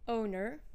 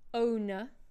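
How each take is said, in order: First: The final R is clearly pronounced. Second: The final R is not pronounced. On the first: "what would these words sound like with a rhotic accent" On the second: "we do not pronounce the R if it's at the end of a word"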